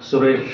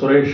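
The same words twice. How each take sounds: First: The name ends with an added vowel. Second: The name ends on a plain consonant. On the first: This is the regional form of the name. "सुरेश बोलते हैं" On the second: This is the standard form of the name. "सुरेश नहीं बोलते हैं"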